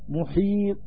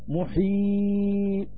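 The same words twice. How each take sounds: First: The long vowel is held short. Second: The long vowel is held medium. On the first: "والقصر" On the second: "والتوسط"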